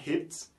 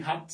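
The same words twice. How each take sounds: First: "hit" with a front "eh" vowel in place of "ah"; rejected vowel sound. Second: "hat" with an open "ah", not an "i"; French-style A. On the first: Teacher showing what not to say, rejected vowel. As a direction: say "hit" close to "het", without the open A. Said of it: "on ne dit pas". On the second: Teacher explaining the first sound, French-style A. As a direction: say "hat" as "haht". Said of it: "on prononce comme si on avait un mot en français". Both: Shown as a demonstration.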